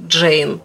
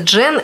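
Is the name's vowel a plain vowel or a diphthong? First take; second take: diphthong; plain vowel. First: The name has an ey diphthong. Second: The name has a plain e vowel. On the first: This is how the name really sounds. The speaker calls it right. "на самом деле «Джейн»" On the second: This is the form used in the Russian translation. The speaker calls it wrong. "В русской транскрипции называется «Джен Эйр»"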